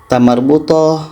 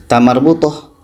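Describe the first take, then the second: No difference in how they are said.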